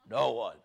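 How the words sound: It is said in a put-on deep voice.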